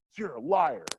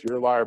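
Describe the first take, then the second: First: Higher, accusing "liar"; student's mock accusation. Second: Teacher snapping back louder on "liar"; mock angry retort. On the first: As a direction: fling "liar" like an outraged student. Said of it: "they're yelling and they're pissed". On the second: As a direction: hurl "liar" back at the student. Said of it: "respond in kind".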